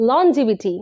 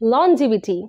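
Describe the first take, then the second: First: The middle consonant is a j sound. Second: The same.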